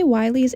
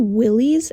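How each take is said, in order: First: The first vowel sounds like 'eye'. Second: The first vowel sounds like 'ih'. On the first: The speaker calls it wrong. "I say it wrong a lot right now" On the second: The speaker calls it right. "it's actually Willie's"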